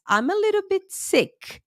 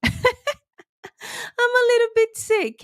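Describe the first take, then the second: First: Said in the usual way. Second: Slow, high, giggling through the words; laughing repeat. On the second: Real, not acted. Host laughing as she admits to viewers she is sick. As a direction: stretch it out with a laugh.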